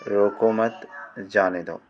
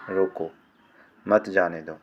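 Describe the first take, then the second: First: रोको मत joined, then जाने दो; रोको मत as one unit, जाने दो following; pause after मत. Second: रोको alone, pause, then मत जाने दो; pause after रोको. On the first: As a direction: run रोको straight into मत, then break. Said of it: "भाव छोड़ दो". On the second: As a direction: break right after रोको, join मत to जाने दो. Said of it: "भाव पकड़ लो". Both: Shown as a demonstration.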